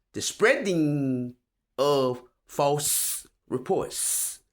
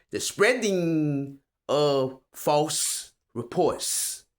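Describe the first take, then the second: Both takes have the same delivery.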